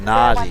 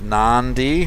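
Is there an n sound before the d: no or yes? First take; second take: no; yes. First: No n sound comes before the d. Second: An n sound comes before the d. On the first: "spoken as it's written" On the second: "Nandi with an extra N that's not there"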